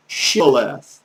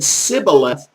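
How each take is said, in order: First: "Shibboleth" said with an initial sh sound; "Shibboleth" with a hushing first consonant. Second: "Sibboleth" said with s instead of sh; "Sibboleth" with no h in the first sound. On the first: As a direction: say "Shibboleth", opening on a clear sh. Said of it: "to tell them to say". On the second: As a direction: say "Sibboleth", opening on a plain s. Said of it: "And if they said". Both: Shown as a demonstration.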